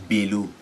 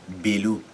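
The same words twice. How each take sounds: The two takes are said the same way.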